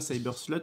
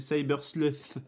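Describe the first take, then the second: First: The last word ends with a plain 't' sound. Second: The last word ends with a 'th' sound. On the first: The speaker calls it wrong. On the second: The speaker calls it right. "c'est Cyber Sluth"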